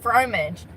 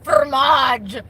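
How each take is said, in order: First: The R is said plainly, not rolled. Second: The R is rolled. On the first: It is ordinary cheese. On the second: It is fancy and costs more.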